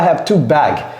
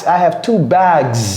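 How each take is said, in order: First: The final s of bags is dropped. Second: The final s of bags is clearly pronounced. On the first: The speaker calls it wrong. "On ne dit pas" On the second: The speaker calls it right. "il faut prononcer les S"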